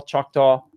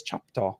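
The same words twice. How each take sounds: First: Said in the usual way. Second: "Choctaw" low and soft, said like "Chop-taw"; son's pronunciation. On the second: Retold or imitated. Dad quoting his son's way of saying "Choctaw", soft "Chop-taw". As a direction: imitate a toddler's "Choctaw", middle sound muddled into "Chop-taw". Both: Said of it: "or as my son says".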